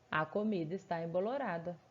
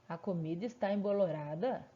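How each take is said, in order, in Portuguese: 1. A voz desce no final, como uma afirmação. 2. A voz sobe no final, como uma pergunta. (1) "a menina responde" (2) "a mãe pergunta"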